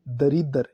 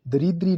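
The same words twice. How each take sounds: First: दरिद्र with no ee at the end; correct form. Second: दरिद्री with final "dree"; wrong form. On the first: Teacher giving the right form: दरिद्र as "da-rid-dar". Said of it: "ये शुद्ध है". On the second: Teacher rejecting the wrong form: दरिद्री with final ee. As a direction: say दरिद्री ending in ee. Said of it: "नहीं". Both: Shown as a demonstration.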